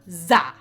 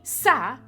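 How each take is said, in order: First: It begins with a buzzing z sound. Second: It begins with a hissing s sound. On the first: "Za with a Z" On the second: "that'd be Sa"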